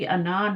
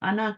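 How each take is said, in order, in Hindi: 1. अंतिम स्वर लंबा खींचा जाता है। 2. अंतिम स्वर छोटा रखा जाता है। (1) "कभी भी अना नहीं कहें" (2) "अना कहें। अना, अलिफ नहीं पढ़ना।"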